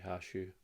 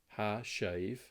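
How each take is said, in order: First: The words are run quickly together and shortened. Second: Both words are said slowly and fully.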